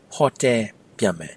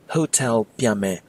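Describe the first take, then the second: First: Hotel is said with a Burmese accent. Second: Hotel is said with an English accent. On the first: The speaker calls it right. "with proper Burmese accent, try saying" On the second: The speaker calls it wrong. "people might still understand you"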